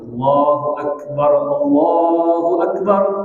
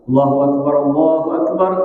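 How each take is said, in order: First: It is said slowly and drawn out. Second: It is said quickly and briskly.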